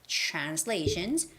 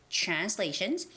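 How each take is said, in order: No difference in how they are said.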